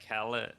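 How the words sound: The middle consonant is an L sound.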